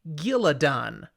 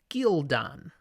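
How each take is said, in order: First: An extra vowel comes between L and D. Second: The L runs straight into the D. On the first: The speaker calls it wrong. "if you're listening to the audiobook" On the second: The speaker calls it right. "There is no vowel between the L and D"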